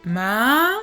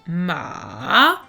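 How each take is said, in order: First: The pitch rises from low to high. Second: The pitch dips down, then rises again. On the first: It means numb or insensitive. "on va vers le haut, ... du grave vers l'aigu" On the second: It means horse. "on part du haut, on va vers le bas et ensuite on revient vers le haut"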